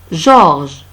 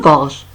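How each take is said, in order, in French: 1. La première consonne est un son doux zh. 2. La première consonne est un son dur g. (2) "ce n'est pas gorge, non"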